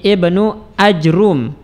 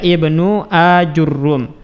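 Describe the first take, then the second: First: No vowel follows the j, and the r is single. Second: A 'u' follows the j, and the r is doubled. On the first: "mensukun jim dan mendomah ra tanpa ditasydidkan" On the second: "jim di dhammah, ra di dhammah dan di tasydid"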